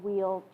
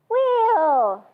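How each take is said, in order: First: It is said in a groaning, dreading way. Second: It is said in a cheerful, upbeat way. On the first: The pose is something to dread. The speaker calls it wrong. "rather than, oh my God, wheel, geez" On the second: The pose is something to enjoy. The speaker calls it right. "If you say it like that, it's more fun"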